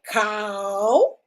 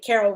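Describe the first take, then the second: First: The name is squeezed into one syllable. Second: The name is said with two clear syllables.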